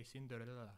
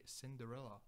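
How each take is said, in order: First: "Cinderella" with its middle syllables slurred together; accented Cinderella. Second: Said in the usual way. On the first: Shown as a demonstration. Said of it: "It's, like, with an accent". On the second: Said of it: "I cannot say Cinderella, I say Cinderella".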